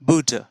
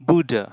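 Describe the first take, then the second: Both takes have the same delivery.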